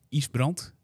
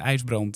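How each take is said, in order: First: The name is said in a Frisian way. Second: The name is said in a standard Dutch way.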